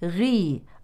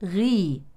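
Both takes have the same delivery.

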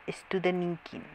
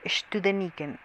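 First: The name is pronounced without a German accent. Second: The name is pronounced with a German accent. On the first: The speaker calls it right. "disculpe usted" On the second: The speaker calls it wrong. "ya lo estoy haciendo con acento alemán"

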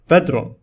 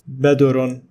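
First: No vowel is heard after the d. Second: A u vowel is heard after the d. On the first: The speaker calls it right. "The following word is pronounced as bedron" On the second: The speaker calls it wrong. "neither it is badurun with dhamma"

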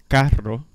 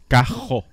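First: The r is rolled with the tongue tip. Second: The r is made at the back of the throat. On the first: "en vez de decir carro" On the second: "Sale de atrás de la garganta"

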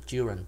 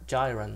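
First: The first vowel is a short i sound. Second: The first vowel is a long i sound. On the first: The speaker calls it right. "thì nó lại thành short I, nó đọc là âm y đó" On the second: The speaker calls it wrong. "chứ không phải là"

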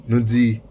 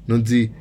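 The two takes are said the same way.

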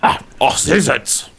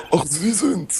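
First: It is said in a scratchy, raspy judge-like voice. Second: It is said in a plain, unrasped voice.

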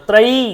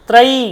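Both takes have the same delivery.

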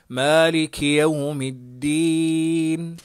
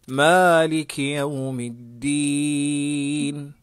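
The two takes are said the same way.

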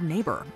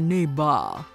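First: It is said in a plain American accent. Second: It is said in a heavy Austrian accent.

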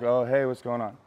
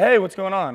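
First: The greeting sounds flat and unenthusiastic. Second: The greeting sounds loud and excited.

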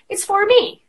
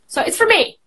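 First: The word 'for' is said fully and clearly. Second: The word 'for' is reduced and quick. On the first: This is the careful form used with learners. "when you speak to somebody who's just learning English" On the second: This is the casual form used with fluent speakers. "it's when you speak to your, like, you know, native English speakers"

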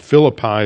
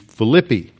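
First: The name is said the usual English way. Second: The name is said in a non-English way.

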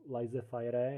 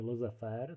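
First: It is read as spelled, not the French way. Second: It is said with French sounds. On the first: The speaker calls it wrong. "nevyslovovat jako laissez-faire, jak to někteří občas vyslovují" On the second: The speaker calls it right. "takže laissez-faire"

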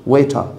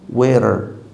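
First: The word is said in a British English accent. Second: The word is said quickly in relaxed casual speech. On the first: "British English" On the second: "fast speaking"

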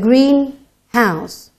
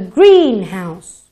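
First: The stress falls on the second word, house. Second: The stress falls on the first word, green. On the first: A house that is painted green. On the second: A building where plants are grown.

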